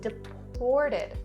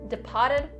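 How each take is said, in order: First: The middle syllable has a clear 'or' sound. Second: The middle syllable has an open 'ah' sound. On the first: The speaker calls it right. "Make sure it's really clearly the or sound" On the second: The speaker calls it wrong. "Don't say pa, pa. Don't say deported, deported. Not correct, and that sounds very odd"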